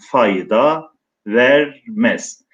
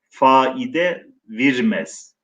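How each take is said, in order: First: The first word is said as fay-da, ending in a. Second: The first word is said as fa-i-de, ending in e.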